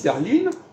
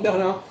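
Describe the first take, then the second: First: The name is said with German pronunciation. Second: The name is said with French pronunciation. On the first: This is how Germans say it. "les Allemands disent Berlin" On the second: This is how French speakers say it. "on va dire Berlin"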